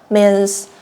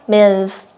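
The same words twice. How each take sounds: The two takes are said the same way.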